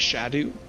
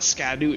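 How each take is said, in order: First: The word begins with a 'sh' sound. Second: The word begins with an 'sk' sound. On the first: The speaker calls it right. "it's Shadow" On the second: The speaker calls it wrong. "It's not Scadu"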